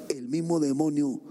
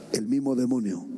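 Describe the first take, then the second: No difference in how they are said.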